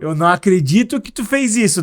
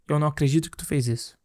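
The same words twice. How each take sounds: First: The tone sounds pleasantly surprised and happy. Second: The tone sounds curt, rude and disapproving. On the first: The listener did something good and welcome. "um ar de surpresa, né? ... Tô feliz" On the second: The listener is being reproached for what they did. "aqui é de um mal-estar, né? Alguém que, tipo, tá me reprovando o que eu fiz"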